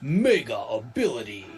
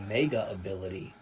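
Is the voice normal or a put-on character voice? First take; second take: put-on; normal. First: It is said in a put-on character voice. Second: It is said in a normal speaking voice.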